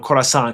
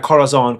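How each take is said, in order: First: The fixed take, Corazon with a hissed s in the middle; corrected pronunciation. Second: Corazon said with a z sound, kor-uh-ZON; the rejected take, Corazon with a buzzing z; wrong pronunciation. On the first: Corrects himself for viewers, Corazon with an s. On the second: Correcting his own pronunciation of the name, Corazon with a z. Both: Shown as a demonstration. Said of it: "not Corazon".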